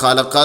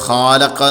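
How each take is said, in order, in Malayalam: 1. ആദ്യ സ്വരം ചെറുതായി മുറിച്ചു പറയുന്നു. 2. ആദ്യ സ്വരം നീട്ടിപ്പിടിച്ചു പറയുന്നു. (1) "ഖലക്ക എന്നുള്ളിടത്ത് മദ്ദക്ഷരം ഇല്ലല്ലോ" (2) "ഫത്തഹന് നീട്ട് അലിഫാൾ വരും"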